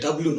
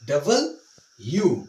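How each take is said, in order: First: The letter name is clipped into two syllables. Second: The letter name is said fully as double-u. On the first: The speaker calls it wrong. "It's wrong pronunciation. এটা ডাব্লু নয়" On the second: The speaker calls it right. "এটা হবে ডাবল ইউ"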